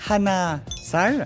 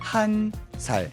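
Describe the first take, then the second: First: The number is said in its full two-syllable form. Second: The number is shortened to one syllable. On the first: The speaker calls it wrong. "on va pas dire hana sal" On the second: The speaker calls it right. "on va plutôt dire han sal, C'est un petit peu raccourci"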